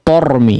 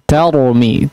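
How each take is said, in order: First: The first vowel sounds dark and rounded, like 'o'. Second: The first vowel sounds open and light, like 'a'. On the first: The speaker calls it wrong. "Jangan tormi ya" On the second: The speaker calls it right. "ta difathahkan"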